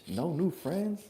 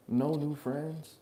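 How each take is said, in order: First: Higher mock kid voice; mock a childish slogan; lightly voiced little kid. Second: Put-on higher, very slow kid voice; hammed-up third grader; slow childish mock. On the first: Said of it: "you sound like a". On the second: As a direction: drag it out like a dumb little kid. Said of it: "heard that from his third grade".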